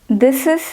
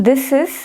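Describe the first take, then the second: Both takes have the same delivery.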